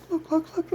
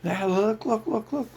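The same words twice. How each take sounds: First: "look, look, look" jumps even higher and squeakier; squeaky mocking voice. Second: High, pushy mock "look, look"; lightly voiced mocking pitchman; mocking puppet-master voice. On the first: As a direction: push the repeated "look" up into a squeak. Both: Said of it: "They're like".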